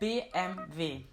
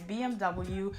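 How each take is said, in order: First: The letters are said the German way. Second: The letters are said the English way. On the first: "the German way" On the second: "in English you would probably pronounce it"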